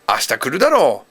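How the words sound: It sounds like a confident, assuming statement.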